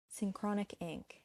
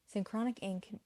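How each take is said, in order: Both takes have the same delivery.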